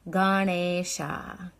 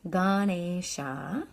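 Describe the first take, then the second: No difference in how they are said.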